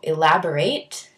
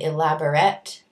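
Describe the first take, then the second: First: It is pronounced the way the verb is. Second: It is pronounced the way the adjective is. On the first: To go into detail. "elaborate is a verb" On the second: Detailed. "elaborate is an adjective"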